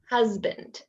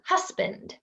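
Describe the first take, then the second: First: The middle consonant is a buzzing z sound. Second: The middle consonant is a hissing s sound. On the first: The speaker calls it right. "these words make a z sound" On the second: The speaker calls it wrong. "Spanish speakers will pronounce them as if they're the s sound"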